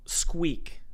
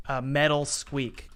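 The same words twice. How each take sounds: First: Breathy whispered "squeak" falling away. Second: "metal" stressed, said slowly and drawn out. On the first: Describing the hinge sound for the editor, whispered. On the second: Naming the hinge sound for viewers, stress on "metal". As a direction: lean on "metal", take it slow. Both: Shown as a demonstration.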